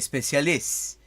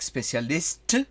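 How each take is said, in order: First: The final t sound is dropped. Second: The final t sound is pronounced. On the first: The speaker calls it right. "you say specialist" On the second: The speaker calls it wrong. "you don't say like specialist"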